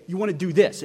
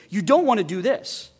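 First: Said in the usual way. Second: "don't" raised and pushed a little louder; stress on don't. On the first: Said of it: "Normally, we'd say". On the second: Shown as a demonstration. The psalm starting with a negative, stressing don't. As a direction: lean on "don't" to mark the negative. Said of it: "He starts with a negative".

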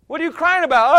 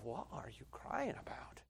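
First: Loud, high exasperated demand; a husband demanding an answer of a crying wife; mock exasperated question. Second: Much softer, a private thought asked under the breath; inner thought. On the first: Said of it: "acted quarrel at home". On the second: Retold or imitated. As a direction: wonder it quietly to yourself. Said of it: "I'm sitting here thinking to myself".

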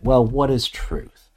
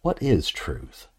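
First: Musing question, voice lifted, drawn out slowly; honest, reflective. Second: Low-key dismissive question, slow and falling; cynical. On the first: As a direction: ask it slowly as if genuinely wondering. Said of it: "an honest and reflective kind of way". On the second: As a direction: toss it off slowly, as if truth hardly matters. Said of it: "in a cynical kind of way". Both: Shown as a demonstration.

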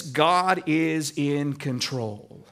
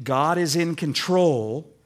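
First: Slow and low, each word weighed; slow deliberate "God is in control"; slow, settled affirmation. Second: Said in the usual way. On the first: Shown as a demonstration. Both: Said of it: "Sometimes we say it like this".

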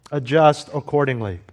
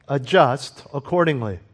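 First: Adjust punched, accordingly trailing off; stress on adjust. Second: Accordingly leaned on, adjust light; stress on accordingly. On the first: Preacher repeating the method, stress on adjust. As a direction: hit the word Adjust first. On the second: Preacher stating the method, stress on accordingly. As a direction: land the weight on accordingly. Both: Shown as a demonstration.

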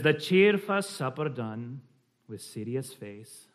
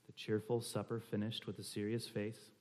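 First: Slow, measured Scottish reading; slight Scottish accent. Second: Said in the usual way. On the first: Shown as a demonstration. Reading a Scots poem to the group, slight Scottish accent. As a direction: read it in a light Scottish brogue. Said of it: "a slight Scottish accent".

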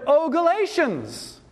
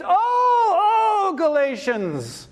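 First: High-pitched OH falling away through GALATIANS; emphatic cry. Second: OH wailed very high and long, falling on GALATIANS; very emphatic cry. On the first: Preacher voicing Paul's cry to the Galatians, emphatic. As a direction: call out "oh, Galatians" in lament. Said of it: "This is very emphatic". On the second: Preacher intensifying Paul's cry to the Galatians, hugely emphatic. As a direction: stretch each OH into an anguished high call. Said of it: "This is a very emphatic statement". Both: Acted.

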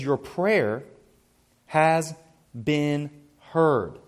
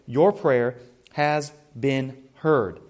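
First: "Your prayer" then "has", "been", "heard" each set apart by long pauses; word-by-word emphasis. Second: "Your prayer has been heard" slow and even in one unbroken line; one slow, weighty sweep with no breaks; slow emphatic phrase. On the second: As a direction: lean on "Your" and draw the whole phrase out slowly. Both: Shown as a demonstration. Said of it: "emphasizing just these words".

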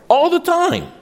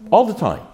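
First: Whole phrase pitched very high; insistent repeat. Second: ALL hit high, falling away on "the time"; emphatic admission. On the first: Preacher driving home that parents fail, high and insistent. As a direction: push "All the time" right up high for emphasis. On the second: Preacher admitting his failings as a parent, emphatic. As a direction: punch "All" and drop off. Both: Real, not acted.

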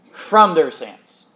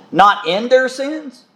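First: "from" hit first, then falling away slowly; slow, emphatic "from", settling down on "sins"; stress on from. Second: "in" set against "from", slow and raised; slow, higher "Not in their sins", left hanging; stress on in. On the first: Preacher giving congregation the true reading, stressed "from". Corrects with the contrasting word. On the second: Preacher correcting a misreading to the congregation, stressed "in". Contrasts two words in a footnote. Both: Shown as a demonstration.

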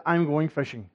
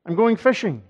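First: Said in the usual way. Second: "I'm going fishing" repeated higher and louder, stressing going; emphatic repeat. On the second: Retold or imitated. Preacher voicing Peter's resolve to the congregation, emphatic. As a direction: hit the words "I'm going fishing" harder and higher the second time.

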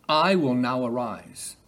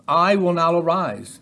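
First: Slower, unhurried repetition; slow savouring. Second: Raised, louder divine declaration; loud proclamation. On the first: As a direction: linger over each word of "I will now arise". Repeats phrase to savour it. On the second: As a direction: proclaim it higher and louder, like God rising. Quoting the Lord rising. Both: Acted.

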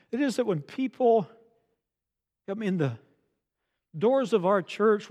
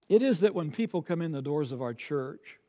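First: Higher, broken up by pauses before "come in the" and "doors of our church"; emphatic repeat. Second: Said in the usual way. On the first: Real, not acted. Pastor making sure they are listening, emphatic repeat with pauses after "people".

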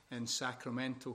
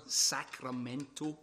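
First: Said in the usual way. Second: Sacramento drawn out slowly, every syllable relished; savouring the word. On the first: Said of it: "As a Scotsman". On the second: Shown as a demonstration. A Scotsman enjoying saying Sacramento, slowly. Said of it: "is a great word to say".

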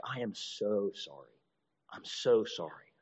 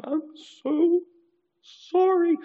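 First: A touch quieter and slower, mock contrite; mild apology. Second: High, loud mock blubbering; crying apology. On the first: Offender apologizing softly after smacking someone, slow and hushed. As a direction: murmur a meek apology, taking your time. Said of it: "someone smacks you in the face and like". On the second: Offender crying while apologizing after smacking again, high and wailing. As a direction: wail the apology through fake tears. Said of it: "this person's crying".

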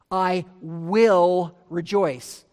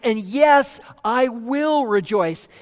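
First: Slow, leaning on "will" to mark the future; "I will rejoice" drawn out, "will" weighted; stress on will. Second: "And yes" pushed louder, then "will" stressed; firm, emphatic promise, stress on "will". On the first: Shown as a demonstration. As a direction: land hard on "will". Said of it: "Notice the change in the verb tense". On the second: Retold or imitated. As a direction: declare "I will rejoice" emphatically. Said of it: "he's saying emphatically".

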